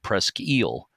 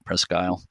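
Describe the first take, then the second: First: The name is said with a French-like pronunciation. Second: The name ends with the English word isle. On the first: "which is more like the French pronunciation" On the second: "But you do say Isle, right?"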